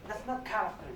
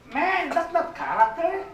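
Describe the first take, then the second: First: Softer, dropped-down echo of the rebuke; quiet repeat. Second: Higher, slow emphatic rebuke on Man. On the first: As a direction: let the line sink to a quiet, firm echo. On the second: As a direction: stretch out "Man" with a rising, slow push. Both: Real, not acted. Repeats rebuke twice differently.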